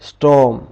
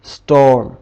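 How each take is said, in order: Both takes have the same delivery.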